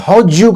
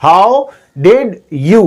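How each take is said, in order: First: "how'd you" said as howdju; fuse "how'd you" into one unit; squeezed blend. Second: "how did you" very slow, one word at a time; three separate syllables. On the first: Teacher showing three syllables become one, blended. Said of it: "करके एक syllable में change किया". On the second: Teacher counting out three syllables, slow and separate. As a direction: stretch out "how did you" with gaps between words. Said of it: "three syllable". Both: Shown as a demonstration.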